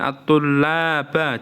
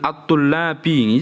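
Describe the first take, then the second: First: The word ends in an a vowel. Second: The word ends in an i vowel. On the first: "juga nggak boleh" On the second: "ini nggak boleh ini"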